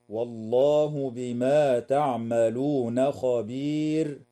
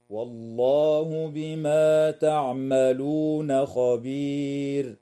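First: Slow chanted recitation ending on خبير; Quran recitation. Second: Chanted recitation. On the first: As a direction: recite slowly to the end of the verse. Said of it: "تنتهي الآية عند كلمة خبير". (تلاوة بطيئة حتى خبير) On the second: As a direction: chant slowly, thin ra at the stop. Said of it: "هكذا". (chanted, تلاوة مرتلة مع ترقيق الراء وقفا في خبير) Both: Shown as a demonstration.

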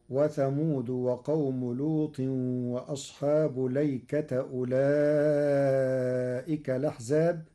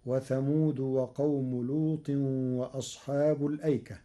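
First: ليكة said with an open lam, no hamza before it, and a final ta with fatha; Warsh reading of ليكة. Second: Said in the usual way. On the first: Shown as a demonstration. Teacher reciting Warsh's reading for students, ليكة with no hamza. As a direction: recite ليكة as lay-kata, dropping the hamza. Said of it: "فتصير". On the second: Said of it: "قرأ ورش كلمة الأيكة".

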